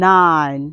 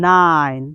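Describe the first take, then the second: No difference in how they are said.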